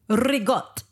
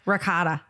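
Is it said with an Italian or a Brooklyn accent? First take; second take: Italian; Brooklyn. First: It is said with an Italian pronunciation. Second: It is said with a Brooklyn pronunciation.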